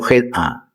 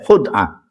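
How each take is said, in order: First: The first vowel is an i sound. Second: The first vowel is a u sound. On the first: This is the commonly used form. The speaker calls it wrong. "Dua bahasa yang populer itu khid'ah" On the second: This is the eloquent, classical form. The speaker calls it right. "Tapi sing fasih khud'ah"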